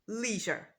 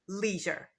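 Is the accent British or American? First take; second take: American; American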